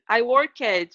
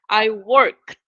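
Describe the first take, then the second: First: The ending is an extra full syllable. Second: The ending is a short T sound. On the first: The speaker calls it wrong. "No, we don't pronounce like that" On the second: The speaker calls it right. "I change the ed and I put the sound of a T"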